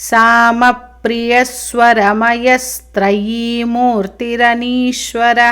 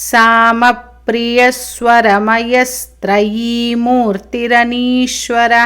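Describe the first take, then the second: No difference in how they are said.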